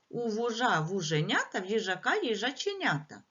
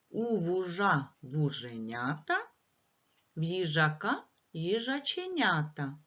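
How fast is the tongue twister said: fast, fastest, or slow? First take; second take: fastest; slow. First: It is said at the fastest pace. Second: It is said at a slow pace.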